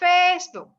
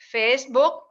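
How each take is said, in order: First: It is said with an American-style pronunciation. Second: It is said with a Thai-style pronunciation. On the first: "where Americans would say Facebook" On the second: "whereas people would say Facebook"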